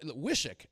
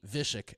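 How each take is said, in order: First: Wishik with a plain W sound, as it is written; spelling pronunciation. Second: Vishik starting with a V sound, the way the locals say it; local V pronunciation. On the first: Shown as a demonstration. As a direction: say Wishik the way it looks on paper, starting with W. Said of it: "I pronounce it like it look". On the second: Retold or imitated. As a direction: turn the W into a V and say Vishik. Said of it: "it's actually like a V".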